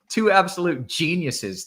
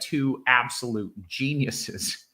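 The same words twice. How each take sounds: First: The phrase is said in a sincere tone. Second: The phrase is said in a sarcastic tone. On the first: The praise is meant genuinely. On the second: The praise seems not to be meant.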